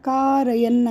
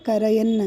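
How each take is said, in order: First: The first vowel is held long. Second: The first vowel is said short. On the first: The speaker calls it right. "ಕಾರಯನ್ ಅಂತಿದ್ದಾಗ" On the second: The speaker calls it wrong. "ಕರಯನ್ ಅಂತೀರ"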